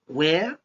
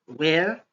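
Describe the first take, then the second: First: The final R sound is silent. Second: The same.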